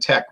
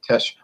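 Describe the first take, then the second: First: The word ends with a k sound. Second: The word ends with an sh sound. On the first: The speaker calls it wrong. "I noticed you were saying Tech" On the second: The speaker calls it right. "it's like a S, S H, shh"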